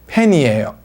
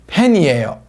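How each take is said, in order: Both takes have the same delivery.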